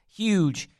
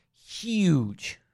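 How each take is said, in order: First: Said in the usual way. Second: Huge stretched out, higher and falling; a gushing, emphatic huge; stress on huge. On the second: Shown as a demonstration. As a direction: lean hard on huge the second time. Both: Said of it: "repeated for emphasis".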